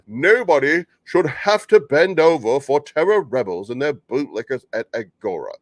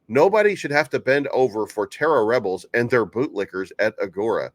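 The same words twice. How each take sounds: First: It is read in an exaggerated put-on voice. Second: It is read in the speaker's ordinary voice.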